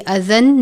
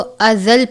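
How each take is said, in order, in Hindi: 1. अंत एक अलग 'n' ध्वनि रखता है। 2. अंत 'l' ध्वनि में मिल जाता है। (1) "अज़न नहीं पढ़ेंगे" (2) "तो हम इसको अज़ल पढ़ेंगे"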